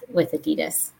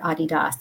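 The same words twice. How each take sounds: First: It is said the American way. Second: It is said the local, non-American way. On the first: "only us in the US, we like to have a special tone to how we say Adidas" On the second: "as probably most people here say"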